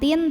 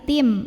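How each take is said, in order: First: The syllable ends with an n sound. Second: The syllable ends with an m sound. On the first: The speaker calls it wrong. "bukan tin" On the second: The speaker calls it right. "tapi tim"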